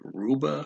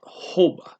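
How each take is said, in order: First: The word begins with an R sound. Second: The word begins with an H sound. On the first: The speaker calls it wrong. "it looks like kind of like like maybe ruba" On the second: The speaker calls it right. "it comes out hoba because the R is pronounced as an H"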